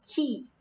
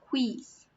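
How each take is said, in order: First: The word starts with a plain k sound. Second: The word starts with a kw sound. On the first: The speaker calls it right. "It's quis. Like a K" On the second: The speaker calls it wrong. "It's not quiz"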